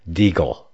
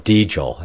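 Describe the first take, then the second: First: The name does not rhyme with angel. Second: The name rhymes with angel. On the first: The speaker calls it wrong. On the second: The speaker calls it right.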